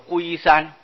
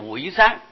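First: The first syllable is pronounced gui. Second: The first syllable is pronounced wei. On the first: This is the standard Mandarin reading. "现在念现代的国语啊叫做龟啊，叫做龟山" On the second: This is the reading carried over from Hakka. "我客家人客家话一向把这个字念成为啊"

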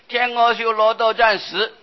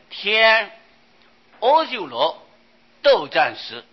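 First: Each syllable gets an even beat with no break. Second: The phrase is split into groups by a break. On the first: The meaning of the line does not come across. The speaker calls it wrong. "每一个字就是好像敲木鱼那么念下去" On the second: The meaning of the line comes across without explanation. The speaker calls it right. "这个文字要把它念断"

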